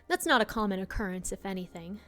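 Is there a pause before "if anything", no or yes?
no. It runs on without a pause before "if anything".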